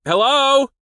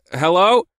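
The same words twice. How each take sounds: First: High, loud holler over shouting. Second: Louder, higher call over noise; raised voice. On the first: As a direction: holler into the phone. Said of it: "raised my voice to hollering volume". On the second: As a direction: call out to be heard. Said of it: "a voice raised to be heard over the shouting". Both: A narrator's reading.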